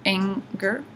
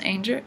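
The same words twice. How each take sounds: First: "Anger" said ANG-ger, with a hard g; "Anger" with short a and hard g; corrected name. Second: "Anger" said as AIN-jer, with a soft g; "Anger" misread to rhyme with danger; mispronounced name. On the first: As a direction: say "Anger" like the word for rage. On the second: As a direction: say "Anger" with a long a and a j sound. Narrator misreads name, then corrects. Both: Real, not acted.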